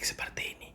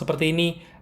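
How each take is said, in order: First: It is spoken in a soft whisper. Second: It is spoken at a normal volume. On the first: "berbisik-bisik seperti ini" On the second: "gue bicara yang normal seperti ini"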